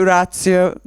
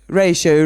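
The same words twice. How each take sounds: First: "ratio" said the Italian way, RAH-tsee-oh; "ratio" with open a and ts sound, Italian style; Italian pronunciation. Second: "Ratio" said the English way, RAY-shoh; "Ratio" as RAY-shoh, British vowel and sh sound; British pronunciation. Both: Shown as a demonstration. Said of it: "said with the Italian accent, not the British".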